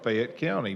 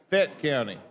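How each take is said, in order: First: The first word has two syllables. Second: The first word has one syllable.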